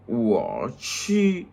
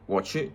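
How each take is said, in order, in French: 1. Les deux syllabes se prononcent lentement et séparément. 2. Les deux syllabes s'enchaînent rapidement. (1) "je parle lentement pour votre compréhension" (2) "ça commence à passer rapidement"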